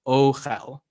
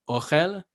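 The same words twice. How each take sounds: First: The O vowel is longer, rounded and diphthong-like. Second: The O vowel is short, pure and less rounded. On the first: The speaker calls it wrong. "not ochel" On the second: The speaker calls it right. "isn't as rounded as the O sound in English"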